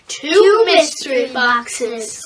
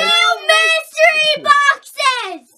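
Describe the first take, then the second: First: It is said in a calm, plain way. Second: It is said with lots of excitement.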